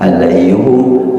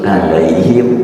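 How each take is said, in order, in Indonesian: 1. Kata ini berakhir dengan hum, dengan vokal u. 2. Kata ini berakhir dengan him, dengan vokal i. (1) "alaihum itu yang asli"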